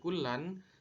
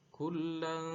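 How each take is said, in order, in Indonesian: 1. Bunyi n di akhir dibaca dengan jelas. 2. Bunyi n di akhir dibaca samar dan sengau. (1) "tidak dibaca kullan" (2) "dibaca samar"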